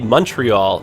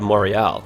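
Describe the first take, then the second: First: It is pronounced with English sounds, not French ones. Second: It is pronounced with French sounds. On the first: "they'll say Montreal" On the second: "instead of Montreal"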